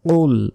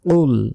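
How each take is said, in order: The two takes are said the same way.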